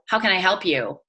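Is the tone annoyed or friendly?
annoyed. It sounds annoyed and unwelcoming.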